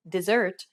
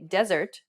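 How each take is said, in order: First: "dessert" stressed on SSERT; second-syllable stress. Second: "desert" stressed on DE; first-syllable stress. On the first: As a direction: hit the last syllable of "dessert", di-ZERT. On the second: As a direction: hit the first syllable of "desert", DEZ-ert. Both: Shown as a demonstration. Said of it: "Consider some examples in English".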